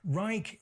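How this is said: The word is said with an English pronunciation. "Reich is an acceptable pronunciation in English"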